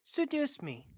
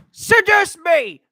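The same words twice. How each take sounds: First: Very quiet, higher-pitched plea; soft seductive request. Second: Loud, high, drawn-out yell; shouted demand. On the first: Asking to be seduced, very soft and high. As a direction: say it small and hushed. Same line, first soft then shouted. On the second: Demanding to be seduced, a loud high shout. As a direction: belt it out slowly at full volume. Same line repeated as a shout. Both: Acted.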